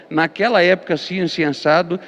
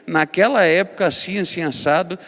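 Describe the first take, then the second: No difference in how they are said.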